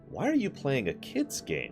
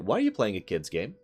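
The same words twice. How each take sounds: First: It is said in a scornful, condescending tone. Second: It is said in a mild, plain tone. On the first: The speaker calls it right. "There we go, that's a little better" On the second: The speaker calls it wrong. "I'm not doing the tone right"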